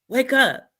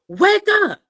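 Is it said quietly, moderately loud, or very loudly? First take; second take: moderately loud; very loudly. First: It is said louder than before. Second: It is said loudest of all.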